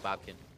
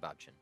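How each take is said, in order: First: The middle of the name has a 'k' sound. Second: The middle of the name has a 'ch' sound. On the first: The speaker calls it wrong. "Was saying Bobkin" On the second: The speaker calls it right. "We will now say Bobchin"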